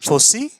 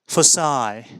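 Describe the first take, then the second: First: The word ends with an ee vowel. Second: The word ends with the vowel in 'my'. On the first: The speaker calls it wrong. "नहीं, ये सही नहीं है" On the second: The speaker calls it right. "put this I sound here at the end of this word"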